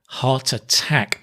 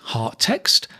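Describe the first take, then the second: First: The first syllable of attack is clearly pronounced. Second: The first syllable of attack is dropped. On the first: The speaker calls it right. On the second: The speaker calls it wrong.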